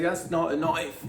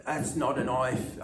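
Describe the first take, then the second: First: Mock Australian accent, slow and loud; a light Australian accent. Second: Put-on a touch of an Australian accent. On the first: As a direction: drawl it like a Crocodile Dundee Aussie. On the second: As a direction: lean on not in an Aussie drawl. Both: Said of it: "broke out into an Australian accent".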